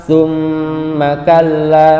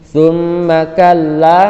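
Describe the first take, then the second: Both takes have the same delivery.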